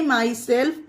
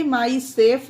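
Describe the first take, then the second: First: "माई सेल्फ" with the L audible before F; "माई सेल्फ", both L and F pronounced; sounded L. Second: "माई सेफ" with the L wrongly silent; "माई सेफ", vowel straight into F; dropped L. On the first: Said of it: "इसे माई सेल्फ पढ़ेंगे". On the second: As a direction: mispronounce it "माई सेफ", no L before F. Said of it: "एल को silent कर देंगे". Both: Shown as a demonstration.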